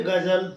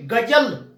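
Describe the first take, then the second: First: Said in the usual way. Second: गजल with pressure on ग and ज; गजल said emphatically, as with nukta; pressed nukta sounds. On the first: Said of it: "हटा देंगे तो इसको बोलेंगे". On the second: Shown as a demonstration. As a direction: lean hard into the ग and ज of गजल. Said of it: "इसको दबाव दे करके".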